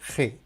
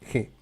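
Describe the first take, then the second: First: The throat sound is strong and harsh. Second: The throat sound is light and soft. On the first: This is the usual way in Spain. "c'est un peu plus fort" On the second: This is the usual way in the Americas. "En Amérique, normalement, on dit seulement G"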